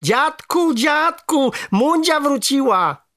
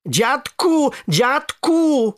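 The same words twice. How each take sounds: First: High, drawn-out excited shout; joyful calling. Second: High, wailing cry for grandpa; calling for help. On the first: Boy tells grandfather the frog is back, shouting joyfully. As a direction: call out with delight, stretching it. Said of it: "zawołałem i z radości". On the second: Boy with a stone on his back, crying out to grandfather. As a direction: call out in distress, drawing the word out. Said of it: "zawołałem". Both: A narrator's reading.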